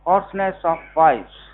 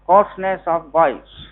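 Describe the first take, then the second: First: Said in the usual way. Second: Hoarseness of voice said slower and louder, each word weighed for notes; teacher stressing hoarseness of voice to be written down; slow emphatic dictation. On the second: Shown as a demonstration. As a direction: dictate hoarseness of voice firmly so they write it. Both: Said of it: "लिख लो madam".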